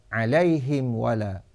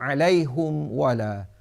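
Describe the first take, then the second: First: The h has an i vowel; m has none. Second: The h has a u vowel; m has none. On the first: "kasrah ha dan iskan mim jamak" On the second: "dhammah ha dan iskan mim jamak"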